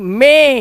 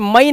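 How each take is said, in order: First: The vowel is a plain 'ay' sound. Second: The vowel is 'ah-ee', like in 'my'. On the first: The speaker calls it right. "मई नहीं, मे" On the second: The speaker calls it wrong. "इसे मई नहीं बोलते हैं"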